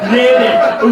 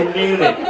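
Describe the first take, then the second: First: "Nailed it" punched out louder and higher; triumphant, louder "Nailed it"; louder triumphant repeat. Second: Said in the usual way. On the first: Acted. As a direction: hit "Nailed it" hard the second time, like a victory shout.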